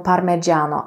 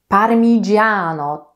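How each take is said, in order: First: The vowel after 'parm' is an 'e'. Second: The vowel after 'parm' is an 'i'. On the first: The speaker calls it wrong. "mamy samogłoskę e. Może właśnie dlatego e, Polacy mówią parmigiano" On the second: The speaker calls it right. "Tam nie ma e, tam jest i"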